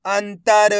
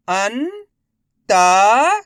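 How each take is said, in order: First: Said in the usual way. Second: अंतर stretched slowly syllable by syllable, rising; teacher sounding out अंतर very slowly; drawn-out sounding out. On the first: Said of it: "मैं किस तरीके से". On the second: Shown as a demonstration. Teacher sounds out a word slowly for kids. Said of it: "मैं किस तरीके से एक एक अक्षर का उच्चारण".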